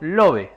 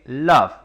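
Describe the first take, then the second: First: Each letter is read with Spanish sounds. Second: It is said with English vowel sounds. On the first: The speaker calls it wrong. "no como está escrito love" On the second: The speaker calls it right. "sino que love"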